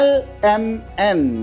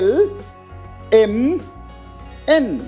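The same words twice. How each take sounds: First: The letters start without a clear e vowel. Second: Each letter starts with a clear e vowel. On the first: The speaker calls it wrong. "I'm not pronouncing them L M N" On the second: The speaker calls it right. "এই কে priority দিচ্ছি"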